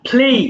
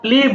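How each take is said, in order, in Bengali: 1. p শ্বাসযুক্ত, বাতাসের ফুঁ সহ। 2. p সাধারণ, বাতাসের ফুঁ ছাড়া। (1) "বলবো ফ" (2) "এটা আর প্লে বলবো না"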